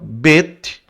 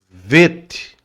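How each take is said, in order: First: It begins with a b sound. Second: It begins with a v sound. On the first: The letter has the dot inside it. "quando tem essa pontuação é bait" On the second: The letter has no dot inside it. "Aí você lê como V de viola"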